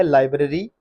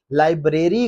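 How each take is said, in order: First: लाइब्रेरी as LAI-bruh-ree, rising at the end; short bruh in लाइब्रेरी; correct pronunciation. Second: लाइब्रेरी as lai-BRAY-ree; long BRAY in लाइब्रेरी; wrong pronunciation. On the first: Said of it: "गलत है". (लाइब्रेरी सही, लाइ-ब्र-री) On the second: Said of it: "लाइब्रेरी गलत है". (लाइब्रेरी ग़लत, लाइ-ब्रे-री) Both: Shown as a demonstration.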